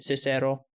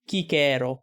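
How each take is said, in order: First: The name starts with a soft consonant sound. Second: The name starts with a hard K sound. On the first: It follows modern Italian pronunciation. The speaker calls it wrong. "So he said Cicero" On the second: It follows the Latin pronunciation. The speaker calls it right. "but really it should be Kikero"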